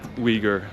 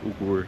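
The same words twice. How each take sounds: First: Uyghur is pronounced the standard English way. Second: Uyghur is pronounced the Dutch way. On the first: The speaker calls it right. "I meant Uyghur language" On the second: The speaker calls it wrong. "That's how we pronounce it. Similar pronunciation in Dutch"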